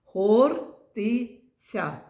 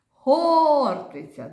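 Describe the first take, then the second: First: ХОРТИЦЯ very slow, split ХОР, ТИ, ЦЯ; syllable by syllable. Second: ХОРТИЦЯ with a long, high, loud ХОР; calling out the word. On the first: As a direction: count out ХОРТИЦЯ in three separate beats, first one loudest. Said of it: "Скільки тут складів?". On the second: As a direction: call ХОРТИЦЯ out, stretching О then dropping. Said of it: "погукаємо це слово". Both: Shown as a demonstration.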